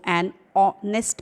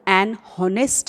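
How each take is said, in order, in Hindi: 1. Honest की शुरुआत एक स्वर से होती है, h नहीं। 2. Honest की शुरुआत में एक सुनाई देने वाली h आवाज़ है। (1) "इसको एन ऑनेस्ट पढ़ते" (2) "तो एन हॉनेस्ट नहीं पढ़ते"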